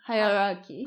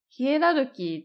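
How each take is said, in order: First: It is said as 'hai-a-ra-ki'. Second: It is said as 'hie-ra-ru-ki'. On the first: This is the English form of the word. "英語で聞いたとき" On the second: This is the Japanese loanword form. "ヒエラルキーって私最初英語で聞いたとき分かんなかった"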